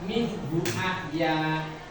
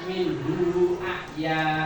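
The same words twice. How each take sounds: First: The vowel of hu is short. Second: The vowel of hu is lengthened. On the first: The speaker calls it right. "Jadi dibaca" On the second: The speaker calls it wrong. "tidak dibaca"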